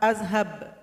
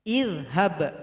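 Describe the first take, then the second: First: The word begins with an 'a' vowel. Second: The word begins with an 'i' vowel. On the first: The speaker calls it wrong. "Enggak boleh dibaca a" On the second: The speaker calls it right. "maka hamzah wasal bunyinya i"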